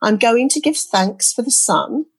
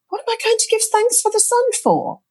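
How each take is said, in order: First: Said in the usual way. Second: Much higher, disbelieving question; you can't believe what you're hearing; high-pitched mock disbelief; incredulous. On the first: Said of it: "listening to those words and thinking". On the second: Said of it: "thinking, "This is just bonkers".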